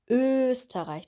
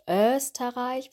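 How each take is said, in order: First: The first vowel is a long, tense Ö. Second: The first vowel is not a long Ö. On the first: The speaker calls it right. "wir sagen Österreich. Die Lippen sind ganz stark gespannt" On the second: The speaker calls it wrong. "Wir sagen nicht Österreich"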